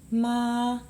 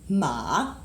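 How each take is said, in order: First: The pitch stays level and held. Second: The pitch dips low then rises. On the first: "Doesn't move, doesn't go up or down" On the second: "this line that goes down and up"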